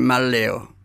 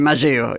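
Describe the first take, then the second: First: The surname is pronounced the Italian way. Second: The surname is pronounced the local Spanish way. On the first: This is how the name is said in Italy. "en Italia, que es un apellido italiano, dicen Malleo" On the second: This is how the name is said locally. "Acá me dicen Malleo"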